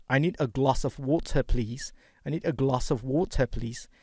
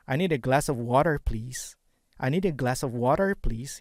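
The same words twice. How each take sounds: First: I need a glass of water said British, with an open a and no r in water; non-rhotic British water; British accent. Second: I need a glass of water said American, with a rhotic r in water; flat American a and r-coloured water; American accent. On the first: Teacher demos to students, British accent. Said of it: "Kalau British". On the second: Teacher demos to students, American accent. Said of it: "Itu American". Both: Shown as a demonstration.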